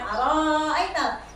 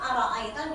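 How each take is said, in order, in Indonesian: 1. Vokalnya dipanjangkan. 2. Vokalnya dibaca pendek. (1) "Jadi bacanya bukan ara ayatal" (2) "cukup ara ayatal dipendek"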